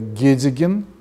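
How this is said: The word starts with a hard g sound. This is the Digor dialect form. "дегорское"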